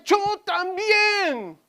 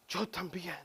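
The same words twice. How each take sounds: First: Plaintive cry. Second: Soft echo. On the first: Crying voice of the boy. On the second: Boy's cry recalled softly. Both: Acted.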